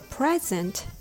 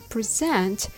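First: The stress is on the first syllable. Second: The stress is on the second syllable. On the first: It is a gift. "When I give you a present, tada, it's something I give you" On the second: It is the act of showing or offering something. "when I present it to you with the rhythm ta-ta"

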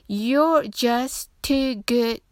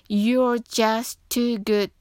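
Both takes have the same delivery.

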